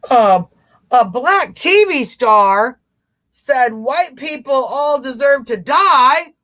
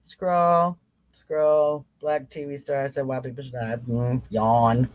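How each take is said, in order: First: Mock outrage. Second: Low, much softer, utterly unbothered read; bored. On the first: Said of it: "Instead of doing that". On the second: Showing followers how to shrug off outrage news, low bored monotone. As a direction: shrug the headline off as if it bores you. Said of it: "you're gonna be like". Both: Shown as a demonstration.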